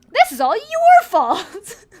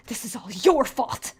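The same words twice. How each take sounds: First: High, loud, slow wailing blame; crying accusation. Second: Accusing. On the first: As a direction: sob out the blame. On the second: Boyfriend blames you. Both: Acted.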